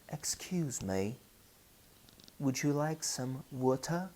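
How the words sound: It is spoken in a British English accent. "If you travel to England, they say"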